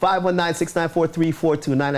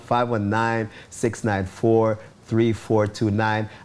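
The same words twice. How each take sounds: First: The number is read out quickly. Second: The number is read out slowly. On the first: "I said that fast" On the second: "I'm going to slow it down"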